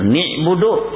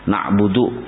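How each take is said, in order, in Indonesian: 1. Vokal pertama itu i, bukan a. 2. Kedua vokal itu u, seperti biasanya dibaca.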